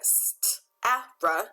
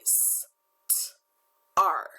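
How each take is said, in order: First: A separate short a is followed by r. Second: The vowel and r merge into one sound. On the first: The speaker calls it wrong. "It's not a st, a, r" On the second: The speaker calls it right. "It's a st, r"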